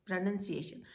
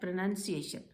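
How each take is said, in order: The two takes are said the same way.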